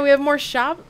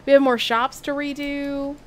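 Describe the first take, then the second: First: Said in the usual way. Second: Put-on Southern accent. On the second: Streamer corrects the slip, resuming Southern accent. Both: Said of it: "I lost the accent".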